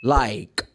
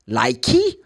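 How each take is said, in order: First: The word ends on the final consonant sound. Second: An extra vowel sound follows the final consonant. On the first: The speaker calls it right. "The last sound is k" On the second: The speaker calls it wrong. "You don't say"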